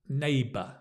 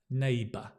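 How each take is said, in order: The two takes are said the same way.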